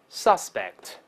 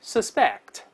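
First: "suspect" as a noun, sus- stressed and low, falling; noun stress on first syllable. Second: "suspect" as a verb, the -spect syllable stressed, sharp fall at the end; verb stress on second syllable. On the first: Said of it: "但重音跑前面去了". (名词suspect，重读第一音节) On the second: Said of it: "再来一遍". (动词suspect，重读第二音节) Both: Shown as a demonstration.

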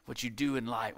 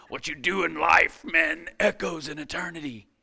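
First: Said in the usual way. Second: Put-on Gladiator accent. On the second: Preacher redoing a line from a movie for his audience, in a put-on Gladiator accent. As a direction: declaim it in a mock film-gladiator accent. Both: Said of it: "he kinda has a better accent than that".

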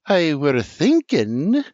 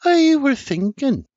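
First: Slow, higher, louder, pointed; Sarah glaring, repeating herself pointedly; pointed, slow restart. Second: Much higher, louder sweet-talking; Sarah coaxing Senior with a smile; warm persuasive smile. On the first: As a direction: say it slowly, daring interruption. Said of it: "Boring holes through R J". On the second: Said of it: "With a warm, persuasive smile". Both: A narrator's reading.

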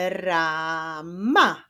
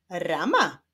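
First: "rama" split into ra, ma, drawn out; syllable by syllable. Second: Said in the usual way. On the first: Shown as a demonstration. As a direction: say "rama" slowly as two separate syllables. ("rama" powoli, sylabami: ra, ma) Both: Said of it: "Do sylaby ra".

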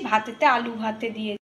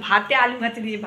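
First: ভাতেতে said with an extra syllable, a wrong form; slip of the tongue. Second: ভাতে said short and clean, the fixed form; corrected word. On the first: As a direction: trips over ভাতেতে before correcting. (ভাতেতে বলে ভুল উচ্চারণ) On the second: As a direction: correct the slip to a plain ভাতে. (শুধরে নিয়ে ভাতে বলা) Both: Real, not acted. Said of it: "ভুল বললাম".

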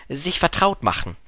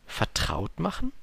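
First: Said in the usual way. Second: "Vertraut machen?" with a questioning upturn; puzzled question. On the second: Acted. Prince echoes it as a question.

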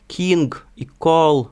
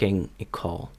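First: Loud, slow king and call without a puff after k; king with a hard final g, call with a Ukrainian l; Ukrainian-accented English. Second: King and call with a slight puff after k; English-style breathy k in king and call; light aspiration on K. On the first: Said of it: "І замість". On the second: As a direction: let a little air out on the k of king, call. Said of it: "додають легенький придих". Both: Shown as a demonstration.

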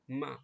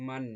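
First: মা with no n at the end; open short মা. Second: মান closed on a held n; n-ending মান. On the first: Teacher showing one zabar to pupils, open মা. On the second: Teacher showing two zabar to pupils, মান ending in n. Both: Shown as a demonstration. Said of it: "উচ্চারণ হবে".

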